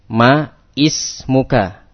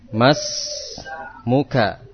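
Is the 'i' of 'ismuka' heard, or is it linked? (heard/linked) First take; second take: heard; linked. First: The i of ismuka is clearly pronounced separately. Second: Ma runs straight into smuka, dropping the i. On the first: The speaker calls it wrong. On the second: The speaker calls it right.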